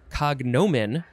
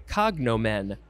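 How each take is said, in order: First: The stress is not on the first syllable. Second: The stress is on the first syllable.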